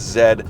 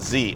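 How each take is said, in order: First: The letter is pronounced as 'zed'. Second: The letter is pronounced as 'zee'. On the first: This is the Canadian way of saying it. The speaker calls it right. "we speak good old fashioned Canadian English, and that means it's Z" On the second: This is the non-Canadian way of saying it. The speaker calls it wrong. "not Z"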